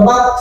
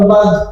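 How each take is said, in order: First: The syllable ends with a t sound. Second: The syllable ends with a d sound. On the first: The speaker calls it wrong. "বাত বলবেন না" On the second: The speaker calls it right. "বলবেন বাদ"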